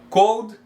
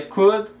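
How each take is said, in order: First: "cold" with a long o and audible L; "cold", the word for chilly, as the wrong take; contrasting mispronunciation. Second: "could" with a short u sound and silent L; "could" as if it had only a U in the middle; correct pronunciation. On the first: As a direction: say "cold" with an "ohl" in the middle. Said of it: "não cold". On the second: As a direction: say "could" like "kud". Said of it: "a pronúncia dessa palavra aqui é could". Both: Shown as a demonstration.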